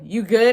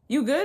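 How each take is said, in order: First: It sounds like a hostile challenge. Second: It sounds like a caring check-in.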